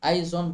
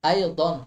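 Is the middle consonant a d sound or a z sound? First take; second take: z sound; d sound. First: The middle consonant sounds like z. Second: The middle consonant sounds like d. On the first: The speaker calls it wrong. "আমরা অনেকেই এটিকে জদ উচ্চারণ করি" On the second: The speaker calls it right. "বিশুদ্ধ উচ্চারণ হবে আই দন"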